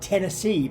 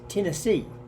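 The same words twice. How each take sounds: First: The first vowel is a plain 'eh' sound. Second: The first vowel is a nasal 'ih' sound.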